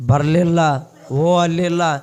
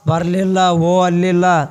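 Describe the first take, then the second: No difference in how they are said.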